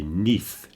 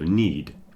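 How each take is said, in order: First: The word ends with a soft th sound. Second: The word ends with a clear d sound. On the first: The speaker calls it wrong. "they say neath instead of need" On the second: The speaker calls it right. "focus on that D at the end of the word"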